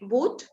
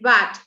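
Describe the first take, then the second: First: The vowel is a long oo sound. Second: The vowel is a short uh sound. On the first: The speaker calls it wrong. "cuando dice boot" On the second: The speaker calls it right. "es bat"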